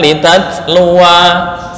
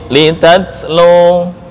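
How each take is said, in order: First: The final vowel is lengthened into a long ending. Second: The final vowel is short with no added sound. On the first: You two recite. The speaker calls it wrong. "Bukan litat luwa, salah" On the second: You (Muhammad) recite. The speaker calls it right. "Waqaf sini"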